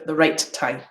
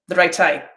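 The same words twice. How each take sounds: First: A short gap separates 'right' and 'tie'. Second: The words run together with no gap. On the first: The speaker calls it right. "instead of" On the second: The speaker calls it wrong. "if I don't use the delay"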